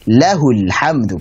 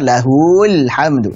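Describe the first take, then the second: First: The vowel after 'h' in 'lahul' is kept short. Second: The vowel after 'h' in 'lahul' is lengthened. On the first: The speaker calls it right. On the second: The speaker calls it wrong. "Tidak bisa"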